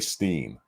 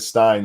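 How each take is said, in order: First: The vowel is an 'ee' sound, like seen. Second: The vowel is an 'eye' sound, like fine. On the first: This is the split-off branch's pronunciation. "they would say Steen" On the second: This is the usual family pronunciation. "instead of Stein"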